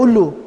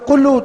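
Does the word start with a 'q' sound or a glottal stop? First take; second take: glottal stop; q. First: The word starts with a glottal stop. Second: The word starts with a 'q' sound. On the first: "قاف کو حمزہ بولتے ہیں" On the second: "آپ کہنا چاہتے ہو قلو"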